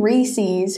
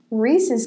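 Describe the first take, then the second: First: "Reese's" said as "Ree-seez"; wrong Reese's pronunciation. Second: Said in the usual way. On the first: Shown as a demonstration. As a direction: rhyme the end of Reese's with "ease". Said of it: "Whoever says that, that's incorrect". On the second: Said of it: "It's Reese's".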